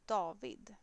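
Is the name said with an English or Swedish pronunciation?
Swedish. The name has a Swedish pronunciation. "it's a bit different"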